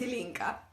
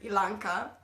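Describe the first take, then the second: First: The middle syllable has an 'i' vowel. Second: The middle syllable has an 'a' vowel. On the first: Her actual name. The speaker calls it right. "but my name is Ilinka" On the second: A version others have used. The speaker calls it wrong. "I've heard many uh, variations on my uh, name"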